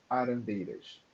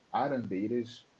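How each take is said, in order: Both takes have the same delivery.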